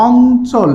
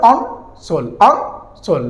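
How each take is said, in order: First: "অঞ্চল" drawn out on the first syllable, "ong-chol"; teacher presenting "অঞ্চল" before breaking it down; careful word demo. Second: "অঞ্চল" split as "on", pause, "chol"; pronunciation demo. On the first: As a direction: say "অঞ্চল" slowly as one stretched word. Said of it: "যদি অঞ্চলকে যদি ভাঙা যায়". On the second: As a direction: sound out "অঞ্চল" with a dental n, syllable by syllable. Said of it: "তাহলে এখানে দেখো". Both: Shown as a demonstration.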